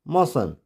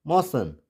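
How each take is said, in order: Both takes have the same delivery.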